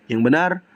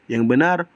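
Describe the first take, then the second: No difference in how they are said.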